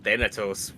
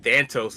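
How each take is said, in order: First: The name is said with three syllables. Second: The name is said with two syllables. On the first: The speaker calls it right. "not Thanatos" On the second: The speaker calls it wrong. "When I was younger, I said Thantos"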